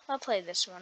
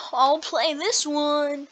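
First: Said in the usual way. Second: Slow, higher and louder, leaning on "this"; emphatic decision. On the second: Real, not acted. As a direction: draw out "I'll play this one" with weight on "this". Deciding on a game, again.

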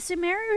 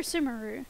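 First: Sumeru stressed on the middle, suh-MAIR-oo. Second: Sumeru stressed up front, SOO-muh-roo. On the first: Streamer asks viewers how it's said, Sumeru as suh-MAIR-oo. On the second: Streamer offers the other option, Sumeru as SOO-muh-roo. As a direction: say Sumeru with "soo" first, short middle. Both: Shown as a demonstration. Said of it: "do we know how it's pronounced".

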